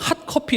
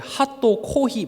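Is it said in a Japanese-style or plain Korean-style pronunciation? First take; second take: Korean-style; Japanese-style. First: It is said plainly as two short words. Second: Extra vowels are added after the consonants. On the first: "그냥 핫커피 이러면 되는데" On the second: "핫도 코히 뭐 이렇게 발음을 하고요"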